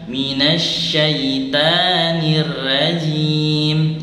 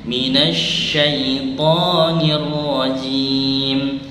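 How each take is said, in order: First: The vowel after the t sounds like a. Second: The vowel after the t sounds like o. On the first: The speaker calls it wrong. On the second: The speaker calls it right. "Jadi to menggunakan huruf to"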